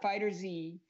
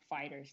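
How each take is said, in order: First: The name ends with a separate letter Z. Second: The name ends in a plain s sound. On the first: The speaker calls it wrong. "not Fighter Z" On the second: The speaker calls it right. "it is called Dragon Ball Fighters"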